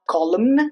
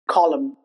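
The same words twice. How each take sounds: First: The final N is pronounced. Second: The final N is silent. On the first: The speaker calls it wrong. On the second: The speaker calls it right.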